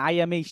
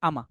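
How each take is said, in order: First: Each word is said separately and fully. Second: The words run together into one short unit. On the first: The speaker calls it wrong. "এরকম ভাবে বলেন" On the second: The speaker calls it right. "এই দুইটা মিলে হবে কি আমা"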